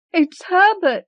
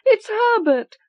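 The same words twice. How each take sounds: First: High frantic scream of hope. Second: Even higher wild scream. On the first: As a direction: scream his name wildly. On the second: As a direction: shriek it, beside herself. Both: Acted. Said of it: "she screamed".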